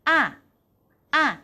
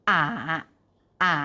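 First: The syllable is said with a falling pitch. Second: The syllable is said on a low pitch. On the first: "เสียงที่4 ... ใกล้เคียงกับเสียงไม้โทในภาษาไทย" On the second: "เสียงที่3 ... ใกล้เคียงกับเสียงไม้เอกในภาษาไทย"

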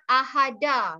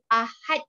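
First: The word ends with an extra vowel sound. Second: The word ends sharply on its final consonant. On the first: The speaker calls it wrong. "not Ahada" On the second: The speaker calls it right. "Ahad. Full stop"

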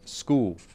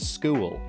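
First: The final L sound is dropped entirely. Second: The final L sound is clearly pronounced. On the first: "they might drop the L entirely" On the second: "In Queensland, you might say"

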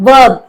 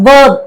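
The two takes are said the same way.

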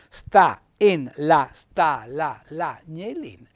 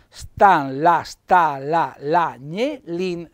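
First: The vowels are kept apart, giving eight syllables. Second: The vowels are merged, giving seven syllables. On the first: "ecco che diventa otto"

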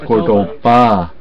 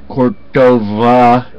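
First: The middle consonant is a B sound. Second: The middle consonant is a V sound. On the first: The speaker calls it right. "it's with a B, not a V" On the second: The speaker calls it wrong. "It's not Cordova"

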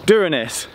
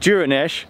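First: The first D sounds hard, like a plain D. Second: The first D sounds soft, like a J. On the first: "or a hard D" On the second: "like a soft D"

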